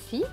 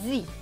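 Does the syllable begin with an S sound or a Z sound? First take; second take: S sound; Z sound. First: The syllable begins with a hissing S sound. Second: The syllable begins with a buzzing Z sound. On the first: The speaker calls it wrong. "normalement, ça devrait se prononcer si" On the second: The speaker calls it right. "Le S va donc se prononcer Z"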